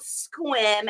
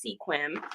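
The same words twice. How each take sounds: First: "Sequim" said as one syllable, SKWIM; "Sequim" run together to rhyme with swim; local pronunciation. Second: "Sequim" said in two syllables, SEE-kwim; "Sequim" sounded out as it is spelt; common mispronunciation. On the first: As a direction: say "Sequim" as "skwim", dropping the first vowel. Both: Shown as a demonstration. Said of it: "Everyone pronounces it as Sequim".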